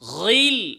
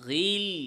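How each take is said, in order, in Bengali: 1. gh ধ্বনিটি খুব মোটা ও ভারী। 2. gh ধ্বনিটি শুধু হালকাভাবে মোটা। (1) "ওরকম গিল বেশি মোটা করলে সেটা কি হবে? ভুল হবে।" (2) "কম কম, মোটা কম"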